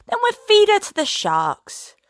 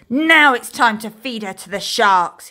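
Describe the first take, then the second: First: Menacing threat. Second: A louder pirate roar; roaring threat. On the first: Captain threatens with sharks. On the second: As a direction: roar the threat, stressing Now. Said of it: "he roared". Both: Acted.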